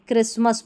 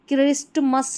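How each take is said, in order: First: The t sound is left out in the middle. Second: The t sound is pronounced in the middle. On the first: The speaker calls it right. "क्रिसमस पढ़ेंगे" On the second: The speaker calls it wrong. "क्रिस्टमस नहीं पढ़ेंगे"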